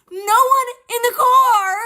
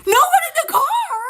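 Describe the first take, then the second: First: Incredulous. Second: A much higher, stunned echo; can't believe what she heard; disbelief. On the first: Disbelief at mom's claim. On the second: Echoing mom's claim in stunned disbelief. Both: Retold or imitated.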